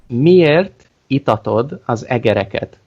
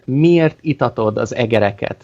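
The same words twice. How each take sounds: First: It is said slowly. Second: It is said at normal speed.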